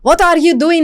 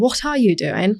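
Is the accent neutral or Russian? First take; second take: Russian; neutral. First: Russian accent with hard r and t sounds. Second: Everyday accent with soft r and t sounds. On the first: "अब Russian वाले" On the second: "मैं usually बोलती हूँ"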